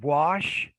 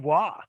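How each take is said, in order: First: The final consonant sound is pronounced. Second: The final consonant sound is left off. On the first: The speaker calls it right. "if you have the word wash" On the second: The speaker calls it wrong. "they may not pronounce the final consonant sound"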